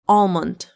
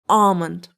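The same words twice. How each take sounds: First: The L sound is pronounced in the word. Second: The L sound is not pronounced in the word. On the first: "in American English, L can be pronounced like almond" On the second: "I like the British one more"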